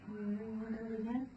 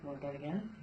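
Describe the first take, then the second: First: Higher and slow, coaxing the horse; sing-song question to the horse, higher and slower; coaxing horse-talk. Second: Said in the usual way. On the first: Real, not acted.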